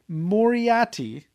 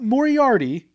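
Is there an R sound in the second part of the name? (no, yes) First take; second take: no; yes. First: The name has no second R sound. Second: The name has a second R sound. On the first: The speaker calls it right. "it's Moriarty, There's no second R" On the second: The speaker calls it wrong. "not Moriarty"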